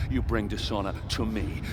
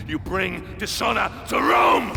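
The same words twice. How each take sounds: First: Said in the usual way. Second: Much higher, louder, slow furious shout. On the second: Acted. General berating the centurion, furious shout. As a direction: roar the last word at him.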